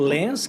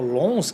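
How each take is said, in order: First: The vowel sounds like 'en', as spelled. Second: The vowel sounds like a nasal 'on'.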